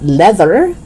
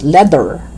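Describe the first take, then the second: First: "leather" with buzzing TH; tongue out and humming mid "leather"; voiced TH. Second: "leather" as "ledder"; hard D in "leather". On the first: Teacher correcting learners, "leather" with voiced TH. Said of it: "but leather". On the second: Teacher showing learners the mistake, "leather" with D. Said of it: "not leather". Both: Shown as a demonstration.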